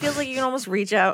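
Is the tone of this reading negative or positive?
positive. It is read in an upbeat, pleased tone. Being so close is a nice feature. The speaker calls it wrong. "I read that like that was the positive part"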